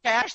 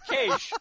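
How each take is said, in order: First: The word is pronounced exactly like 'cash'. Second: The word is not pronounced like 'cash'. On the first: "If they wanted it pronounced cash" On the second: "I thought that's how it was pronounced"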